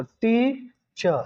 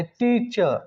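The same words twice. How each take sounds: First: teacher slowly split as टी, चर; split into syllables. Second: Said in the usual way. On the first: Shown as a demonstration. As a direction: stretch टी, pause, then चर. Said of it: "teacher word में विद्यार्थी दो syllable".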